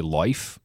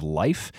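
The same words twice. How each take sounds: First: Put-on LIFE said with the old Vermont "oy" vowel, like "loyf"; Vermont long I. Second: Said in the usual way. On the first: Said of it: "We heard him say life kind of instead of life". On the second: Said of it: "kind of instead of life".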